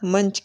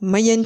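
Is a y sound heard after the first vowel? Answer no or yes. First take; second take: no; yes. First: The vowel is nasalized with no y sound. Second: A y sound comes before the nasal. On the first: The speaker calls it right. "પણ મંચ કહીએ છીએ" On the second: The speaker calls it wrong. "મયંચ નથી કહેતા"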